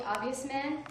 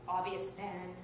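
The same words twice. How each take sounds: First: Said in the usual way. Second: Lower, softer superhero-announcer voice; mock superhero title. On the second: Shown as a demonstration. Comic introducing her nickname in a lower hero voice. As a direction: intone it like a hero's name.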